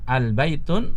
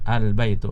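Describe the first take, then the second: First: The word ends with an added n sound. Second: The word ends on a vowel without n. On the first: The speaker calls it wrong. "al-baitun sa salah" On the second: The speaker calls it right. "Yang benar adalah al-baitu ya"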